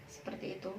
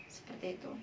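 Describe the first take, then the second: Both takes have the same delivery.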